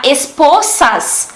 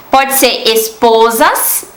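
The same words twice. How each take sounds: First: "Esposas" slow, with a crisp Spanish s sound in the middle. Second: "esposas" said the Portuguese way, with a z sound in the middle. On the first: Teacher reads the Spanish word slowly, Spanish pronunciation. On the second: Teacher gives the Portuguese meaning, Portuguese pronunciation. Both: Shown as a demonstration.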